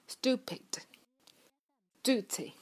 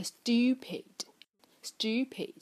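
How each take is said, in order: First: Slow "stupid", "duty" with plain oo, no glide; American u. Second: Slow "stupid" with a y-glide, styu-; British long u. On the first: Teacher contrasts American U, "stupid, duty" with plain oo. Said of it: "那美音里面呢，它会发成". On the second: Teacher demonstrates British U for learners, "stupid" with yoo. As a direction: say "stupid" the British way, as "styoo-pid". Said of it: "这个U在英音里面是偏向于U的音". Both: Shown as a demonstration.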